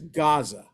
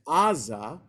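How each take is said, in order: First: The name begins with a G sound. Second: The name begins with a vowel sound. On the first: This is the English form. "in English it's Gaza" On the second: This is the Hebrew form. "in Hebrew it's Aza"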